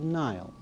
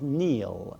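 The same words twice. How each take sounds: First: The name has an English pronunciation. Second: The name has its native Irish pronunciation.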